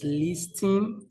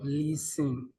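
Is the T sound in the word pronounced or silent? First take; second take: pronounced; silent. First: The T sound is pronounced in the word. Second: The T sound is silent in the word. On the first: The speaker calls it wrong. "Someone pronounced the word spelled L I S T E N as listing" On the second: The speaker calls it right. "the T is silent"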